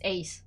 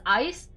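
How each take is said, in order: First: The vowel sounds like the one in 'ace'. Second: The vowel sounds like the one in 'ice'. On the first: The speaker calls it right. "It's pronounced as Ace" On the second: The speaker calls it wrong. "I like to pronounce it as Ice, but apparently it's not Ice"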